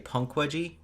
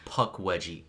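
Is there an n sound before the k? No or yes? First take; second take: yes; no. First: An n sound comes before the k. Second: No n sound comes before the k. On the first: The speaker calls it wrong. "that's just me being wrong" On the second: The speaker calls it right. "it's Pukwudgie"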